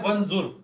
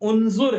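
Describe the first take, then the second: First: The word starts with a 'wa' sound. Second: The word starts with an 'u' sound. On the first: The speaker calls it wrong. "अब वंजुर कोई वर्ड ही नहीं है।" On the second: The speaker calls it right. "उन होगा ये, इस पे पेश लगेगा।"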